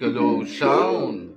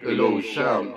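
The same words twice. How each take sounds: First: The voice sounds like a demon. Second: The voice sounds very deep and low. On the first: "Parang demonyo" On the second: "napakababa ng boses ko"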